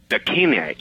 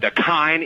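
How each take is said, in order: First: The last syllable does not rhyme with spine. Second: The last syllable rhymes with spine. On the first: The speaker calls it wrong. "We accidentally or stupidly pronounced it. I can't even remember. I think we called it Dakine" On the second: The speaker calls it right. "it rhymes with spine"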